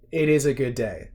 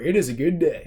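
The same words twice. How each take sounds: First: It is said in a natural accent. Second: It is said in a put-on accent.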